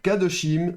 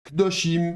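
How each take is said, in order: First: The first syllable keeps a full vowel. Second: The first vowel is dropped, said quickly. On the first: The speaker calls it wrong. "on va pas dire kadoshim" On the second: The speaker calls it right. "mais on va dire kdoshim, vous voyez, beaucoup plus rapide"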